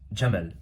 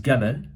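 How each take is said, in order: First: The word begins with a j sound. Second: The word begins with a hard g sound. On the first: It is the Moroccan dialect form. "a Moroccan would pronounce the word as jamal" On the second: It is the Egyptian dialect form. "An Egyptian would pronounce that word as gamal"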